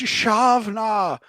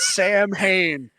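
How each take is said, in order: First: The word begins with a 'sh' sound. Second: The word begins with an 's' sound. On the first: The speaker calls it right. "I think it's Shavna" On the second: The speaker calls it wrong. "not Sam Hain"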